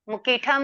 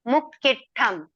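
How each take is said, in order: First: The consonant is short with no extra pressure. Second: The double consonant is held long with pressure. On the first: The speaker calls it wrong. "मुक्किठम नहीं" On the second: The speaker calls it right. "Pressure देके पढ़ना है"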